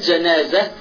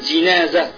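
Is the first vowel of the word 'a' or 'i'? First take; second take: a; i. First: The first vowel is an 'a' sound. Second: The first vowel is an 'i' sound. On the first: This is the dialect form. The speaker calls it wrong. "c'est pas le janaza" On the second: This is the pure Arabic form. The speaker calls it right. "mais le jinaza en langue arabe pure"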